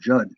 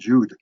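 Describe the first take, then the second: First: The vowel is short, rhyming with mud. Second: The vowel is long, rhyming with food. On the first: This is how the owner says the name. The speaker calls it right. "I pronounce my name Judd" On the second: Callers who don't know the name say it this way. The speaker calls it wrong. "I get a lot of calls to, to Brian Jude"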